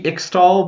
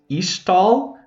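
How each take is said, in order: First: The x is sounded as ks. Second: The x is sounded as sh. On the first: "Could just be Ixtal" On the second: "like the X being pronounced like an S H"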